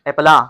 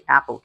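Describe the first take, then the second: First: The word ends in an 'ah' vowel. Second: The word ends in an 'l' sound. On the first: The speaker calls it wrong. "हम कहते एप्पला" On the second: The speaker calls it right. "हम इसे एप्पल कहते हैं"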